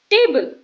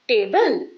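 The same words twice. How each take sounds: First: "table" stressed on TA, higher and louder. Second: "table" stressed on the second part; stress on BLE. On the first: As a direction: punch the first syllable of "table". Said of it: "The first part of the word is stronger". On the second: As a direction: wrongly lean on the end of "table". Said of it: "not table". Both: Shown as a demonstration.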